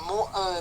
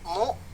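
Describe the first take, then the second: First: The syllable trails into an extra vowel. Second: The syllable ends in a sharp stop. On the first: The speaker calls it wrong. "jangan mu e" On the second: The speaker calls it right. "Mu stop"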